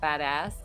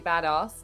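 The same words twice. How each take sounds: First: The word is said with an American pronunciation. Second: The word is said with a British pronunciation. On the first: "not badass" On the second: "I love that you say badass"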